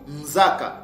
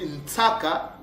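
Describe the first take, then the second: First: The middle consonant is a voiced Z sound. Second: The middle consonant is a voiceless S sound.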